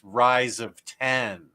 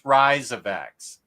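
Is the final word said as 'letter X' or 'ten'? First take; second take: ten; letter X. First: The last word is said as the number ten. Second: The last word is said as the letter X. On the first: The speaker calls it right. "and it's Fall of X" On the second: The speaker calls it wrong. "I said Fall of X"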